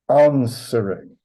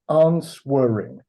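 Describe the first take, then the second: First: The W sound is left out of the word. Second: The W sound is pronounced in the word. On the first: The speaker calls it right. "we don't pronounce the W" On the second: The speaker calls it wrong. "Not answering"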